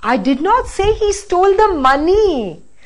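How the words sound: The word money carries the main stress. Something other than the money was stolen. "Now the last"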